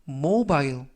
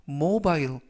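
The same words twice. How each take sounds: Both takes have the same delivery.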